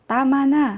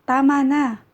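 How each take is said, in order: The two takes are said the same way.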